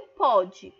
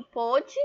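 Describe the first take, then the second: First: "pode" with an open O, as in "paw"; present-tense "pode", its O opened up. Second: "pôde" with a closed O, as in English "go"; past-tense "pôde", its O held closed. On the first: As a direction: say "pode" with a wide open-mid O, punched louder. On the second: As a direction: say "pôde" with rounded, close-mid O. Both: Shown as a demonstration. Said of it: "A única diferença é o acento".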